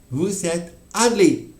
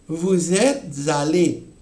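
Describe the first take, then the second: First: There is a short pause before the last word. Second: The words run together with a linking t sound. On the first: "Hago pausa" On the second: "aquí voy a pronunciar"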